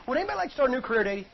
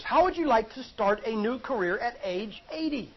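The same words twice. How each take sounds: First: Rattled off fast, a throwaway aside; quick question. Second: Drawn out, weighing "How" and "eighty"; slow pointed question. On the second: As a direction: make them really consider it. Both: Shown as a demonstration. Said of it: "Think about this".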